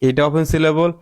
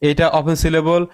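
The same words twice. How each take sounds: Both takes have the same delivery.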